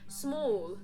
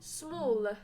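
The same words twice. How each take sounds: First: The final L sounds like a W. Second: The final L is pronounced clearly. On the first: "Just because I put a W in it" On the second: "If I just say the L at the end"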